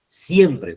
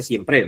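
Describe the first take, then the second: First: "siempre" with SIEM stressed, falling; stress on first syllable. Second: "siempre" stressed on PRE; misstressed siem-PRE; wrong final stress. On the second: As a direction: throw the weight of "siempre" onto its end. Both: Shown as a demonstration. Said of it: "porque usted no dice siempre".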